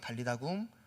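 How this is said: It is said softly and gently. A loving parent is tenderly waking a child. "다정하게"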